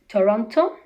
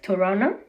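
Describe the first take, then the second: First: The t after the n is clearly heard. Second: The t after the n is left out.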